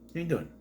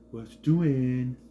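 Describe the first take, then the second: First: It is said in a normal adult voice. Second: It is said in a cooing baby-talk voice.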